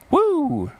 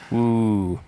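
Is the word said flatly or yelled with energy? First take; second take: yelled; flatly. First: The word is yelled loudly with high energy. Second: The word is said flatly at normal volume. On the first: The speaker calls it right. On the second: The speaker calls it wrong.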